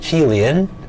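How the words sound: The name is said with Chinese pronunciation.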